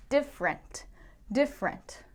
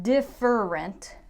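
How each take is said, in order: First: Different said as DIF-rent, middle vowel dropped; two-syllable different. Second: Different said slowly as DIF-er-ent, the middle vowel kept; three-syllable different. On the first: Teacher demoing the common DIF-rent. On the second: Teacher showing the form to avoid, slowly. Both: Shown as a demonstration. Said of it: "Not different".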